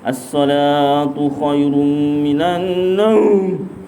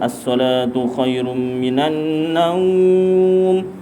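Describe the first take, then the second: First: Naum is cut short in a harsh growling voice. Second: Naum is drawn out long in a normal voice. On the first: The speaker calls it wrong. "dah lah pendek. Lepas tu bunyi suara macam harimau" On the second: The speaker calls it right. "Macam biasa ... Memang panjang"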